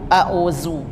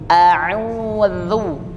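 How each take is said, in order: First: The middle consonant is a 'z' sound. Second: The middle consonant is a 'dh' sound. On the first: The speaker calls it wrong. "bukan a'uzu" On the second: The speaker calls it right. "bukan zai tapi dzal"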